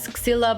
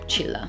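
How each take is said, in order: First: The name starts with a sound other than ch. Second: The name starts with a ch sound. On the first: The speaker calls it wrong. "you don't pronounce it as Xilla" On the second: The speaker calls it right. "it's pronounced as ch"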